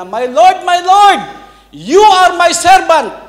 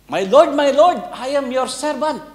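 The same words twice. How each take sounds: First: Very high, loud shout, slowing on "you are my servant"; frightened shout. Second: High, eager recital of "My Lord, my Lord, I am your servant"; practised humble greeting. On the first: Retold or imitated. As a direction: blurt it out, yelling in panic. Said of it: "Sigaw siya ng gano'n". (sumisigaw nang malakas at natataranta) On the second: Acted. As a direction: rehearse the servant line eagerly. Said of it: "practice siya". (masiglang pag-eensayo ng pagbati)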